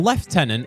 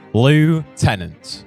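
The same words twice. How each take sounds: First: It is said with a British pronunciation. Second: It is said with an American pronunciation. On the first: "lieutenant is how we say it in English" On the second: "the Americans say it how it's spelt"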